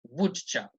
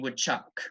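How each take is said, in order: First: The first syllable is strongly stressed. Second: The first syllable is weak and quick. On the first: The name of an animal. "I am putting the emphasis on the wood, so on the first syllable" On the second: A modal verb followed by a verb. "It's a very fast sound"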